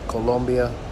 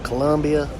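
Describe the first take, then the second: First: The second syllable has a rounded 'o' vowel. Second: The second syllable has an 'uh' vowel. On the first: It follows the local way of saying the name. "tried to say Colombia" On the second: It follows the speaker's usual habit. "like I normally would say"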